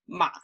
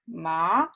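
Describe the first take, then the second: First: The pitch stays very low. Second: The pitch rises from middle to high. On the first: It means horse. "really, really low tone" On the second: It means material. "Rising tone"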